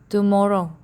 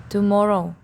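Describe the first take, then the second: Both takes have the same delivery.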